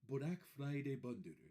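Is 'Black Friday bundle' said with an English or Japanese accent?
Japanese. It is said with a Japanese accent, without L.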